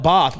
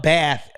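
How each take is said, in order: First: BATH as an American's "bahth"; Bath as if spelled with B-O; imitated British pronunciation. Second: BATH with the short flat "a" of "cat"; Bath with an American short A; American pronunciation. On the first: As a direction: mimic the British Bath with an open back vowel. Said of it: "y'all call it Bath with a B O". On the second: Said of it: "we call it Bath out here in the United States". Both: Shown as a demonstration.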